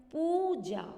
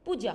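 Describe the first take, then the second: First: पूजा said slowly, loud and high, with a long ऊ and a falling end; teacher demonstrating the correct पूजा; clear correct pronunciation. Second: Said in the usual way. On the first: Shown as a demonstration. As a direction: sound out पूजा carefully, lengthening the ऊ in पू. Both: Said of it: "सही शब्द का उच्चारण किया".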